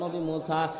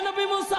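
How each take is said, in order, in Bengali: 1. নামটি আস্তে ও নরম সুরে ডাকা হচ্ছে। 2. নামটি জোরে ও জোর দিয়ে ডাকা হচ্ছে। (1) "কণ্ঠের ভাষা চেঞ্জ হয়ে গেল, আস্তে করে ডাকতে বলে" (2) "বারবার করে নবী মুসারে ডাকতে বলে"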